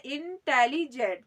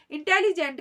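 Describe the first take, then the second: First: इंटेलिजेंट drawn out slowly as इन, टेली, जेंट; syllable by syllable. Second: Said in the usual way. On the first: Shown as a demonstration. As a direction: break इंटेलिजेंट slowly into its sounded parts. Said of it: "तीन तरीके के syllable". (इंटेलिजेंट को टुकड़ों में तोड़कर धीरे) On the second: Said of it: "इंटेलिजेंट कहें".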